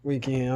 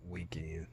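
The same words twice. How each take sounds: First: "weekend" said full and louder; stressed weekend. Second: "weekend" dropped to a hushed whisper. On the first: Vlogger explaining what interesting weekend means, stressed. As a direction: punch "weekend" to make the point. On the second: Vlogger teasing his crazy weekend to viewers, hushed whisper. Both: Shown as a demonstration. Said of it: "when I say interesting weekend".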